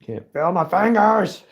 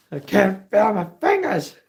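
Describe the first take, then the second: First: High, slow, strained whine from the cold; freezing cold whine. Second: High, strained whine with numb fingers; freezing cold whine. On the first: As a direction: whimper it out with numb fingers. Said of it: "Oh, it's so cold". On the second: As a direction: whine about the cold again. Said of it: "Using my sweatshirt". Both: Real, not acted.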